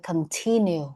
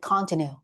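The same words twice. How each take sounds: First: The stress falls on the second syllable. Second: The stress falls on the first syllable. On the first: The speaker calls it right. "nhấn mạnh năm hai ấy" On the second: The speaker calls it wrong. "We don't say continue"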